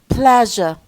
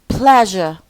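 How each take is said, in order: Both takes have the same delivery.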